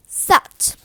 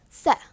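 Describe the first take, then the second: First: "set" with a released t, loud; sounded T. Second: "Set" cut off with no t released; glottal T. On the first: Teacher giving an example word, sounded T. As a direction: finish "set" on an audible t. T sounded, then glottal version. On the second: Teacher giving an example, glottal T. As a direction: end "Set" on a throat catch. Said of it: "So glottal T". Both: Shown as a demonstration.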